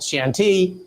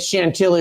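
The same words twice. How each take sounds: First: It is pronounced the French way. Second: It is pronounced the American way. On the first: "Over there it's called Chantilly" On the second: "Here I'm calling it Chantilly Road"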